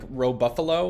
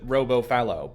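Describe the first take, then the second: First: The name is split as 'Ro' plus 'buffalo'. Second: The name is split as 'Robo' plus 'fallow'. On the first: The name blends robot and buffalo. "I was going for like Row Buffalo, like a combination of robot and buffalo" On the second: The name fits the game's naming convention. "now I pronounce it Robo Fallow"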